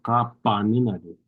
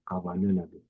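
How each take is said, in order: First: The consonant after ka is a hard p-like sound. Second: The consonant after ka is a soft b-like sound. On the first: The speaker calls it wrong. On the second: The speaker calls it right. "but the soft B"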